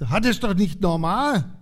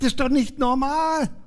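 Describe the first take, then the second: First: It is said somewhat louder. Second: It is said louder still, almost shouted. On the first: "sag das mal ein bisschen lauter" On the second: "noch lauter"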